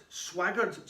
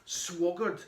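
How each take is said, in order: First: Said in the usual way. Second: "swaggered" misread as "swoggered"; slip of the tongue. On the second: Real, not acted. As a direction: say "swaggered" with an O in the first syllable.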